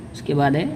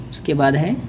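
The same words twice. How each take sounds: The two takes are said the same way.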